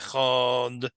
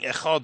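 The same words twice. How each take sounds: First: The middle sound of the word is drawn out. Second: The word is said quickly with a short middle. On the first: "we stretch out" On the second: "instead of saying echad"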